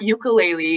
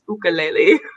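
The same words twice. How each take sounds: First: It is said the American way. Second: It is said the Hawaiian way. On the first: The speaker calls it wrong. "it's not ukulele" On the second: The speaker calls it right. "technically it is pronounced ukulele"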